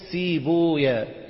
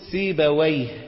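First: The name ends with the syllables 'waya'. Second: The name ends with the syllable 'wayh'. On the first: The ending avoids a word meaning a devil's name. The speaker calls it right. "وإنما ضموا اللفظ فقولوا سيبويا" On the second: The ending is read as a word meaning a devil's name. The speaker calls it wrong. "فلا تقولون سيبويه"

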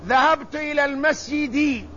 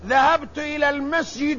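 First: The last word ends in an i vowel. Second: The last word ends in another vowel. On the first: The speaker calls it right. "الاسم الذي يدخل عليه حرف الجر مجرور" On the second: The speaker calls it wrong. "لا يجوز أن تقول"

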